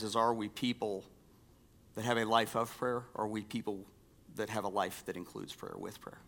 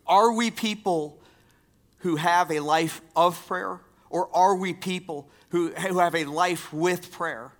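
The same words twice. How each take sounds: First: Soft asking. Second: Higher and louder, pressing the question; emphatic asking. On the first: Pastor quietly poses the question to the church. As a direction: lower and softer, turning the question over quietly. Question posed softly, then repeated loudly. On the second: Pastor presses the question on the congregation, louder. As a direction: challenge the congregation with it. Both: Real, not acted.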